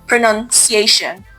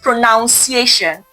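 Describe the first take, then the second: First: The second syllable sounds like nun. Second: The second syllable sounds like noun. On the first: The speaker calls it right. "pronunciation does not" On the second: The speaker calls it wrong. "not pronunciation"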